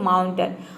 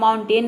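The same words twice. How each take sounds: First: The last syllable has a short 'uh' vowel. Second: The last syllable has a full 'ay' vowel. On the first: The speaker calls it right. "इसको pronounce करते हैं माउंटेन" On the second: The speaker calls it wrong. "इसको हम माउंटेन नहीं pronounce करते हैं"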